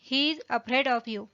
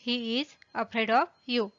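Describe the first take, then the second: First: Said in the usual way. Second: "he is", pause, "afraid of", pause, "you"; "he is afraid of you" spaced out for learners; separated words. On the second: Shown as a demonstration. Teacher repeats with words separated.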